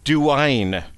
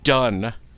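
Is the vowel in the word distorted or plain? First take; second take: distorted; plain. First: The vowel is bent into an odd glide. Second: The word has its plain, ordinary vowel. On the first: The speaker calls it wrong. "they say duine instead of done" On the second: The speaker calls it right. "the word done"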